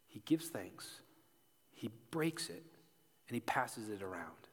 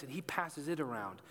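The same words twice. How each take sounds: First: Whispered, reverent; hushed. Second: Said in the usual way. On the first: A narrator's reading. Preacher retelling the bread, whispered. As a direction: breathe the words out softly.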